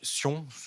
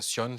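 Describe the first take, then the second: First: The name is said with French pronunciation. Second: The name is said with English pronunciation.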